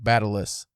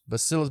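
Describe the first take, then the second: First: The word is said with a T sound. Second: The word is said without a T sound. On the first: The speaker calls it wrong. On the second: The speaker calls it right.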